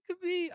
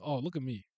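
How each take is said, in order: First: High squeaky mock pride. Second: Said in the usual way. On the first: Mock-proud squeaky repeat.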